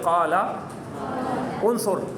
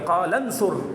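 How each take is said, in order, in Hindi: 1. दोनों शब्द अलग-अलग बोले जाते हैं, स्वर रहता है। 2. शब्द आपस में मिल जाते हैं, स्वर गिर जाता है।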